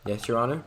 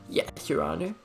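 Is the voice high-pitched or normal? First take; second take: normal; high-pitched. First: It is said in a normal pitch. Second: It is said in a high-pitched voice.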